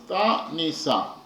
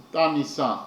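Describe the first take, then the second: First: Ta, Ni, Sa split into three beats with pauses between; syllable by syllable. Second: Said in the usual way. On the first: Shown as a demonstration. Teacher splitting Ta, Ni, Sa for the class, syllable by syllable. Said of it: "he repeats on are those six letters". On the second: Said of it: "The poet repeats on those six letters".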